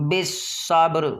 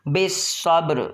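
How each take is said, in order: The two takes are said the same way.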